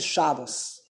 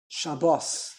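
First: The stress is on the first syllable. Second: The stress is on the last syllable. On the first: The speaker calls it wrong. "You don't say Shabbos" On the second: The speaker calls it right. "it's milara. The emphasis on this last syllable"

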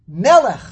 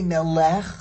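First: The stress is on the first syllable. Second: The stress is on the last syllable. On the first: The speaker calls it right. "always the emphasis is mila el on the second to last syllable" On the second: The speaker calls it wrong. "You don't say melech"

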